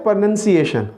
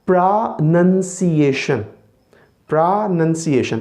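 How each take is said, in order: First: प्रोनंसिएशन with a noun sound as in pronounce; wrong pronunciation. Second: प्रोनंसिएशन slowly with a nun sound; slow teacher's प्रोनंसिएशन; correct pronunciation. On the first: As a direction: demo the mistaken प्रोनंसिएशन. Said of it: "गलत है". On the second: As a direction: model the right प्रोनंसिएशन. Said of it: "इसका सही तलफ़ुज़ क्या है". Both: Shown as a demonstration.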